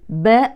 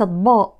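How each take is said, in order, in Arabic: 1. الحرف الأول مرقق، بصوت رقيق. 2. الحرف الأول مفخم، بصوت غليظ. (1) "والحرف المرقق اسمه مرقق" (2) "وليست"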